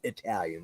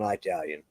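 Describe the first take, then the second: First: The word has a standard pronunciation. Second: The word has a Southern US pronunciation. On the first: "For those of you people that know how to say it right" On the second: "for people down south"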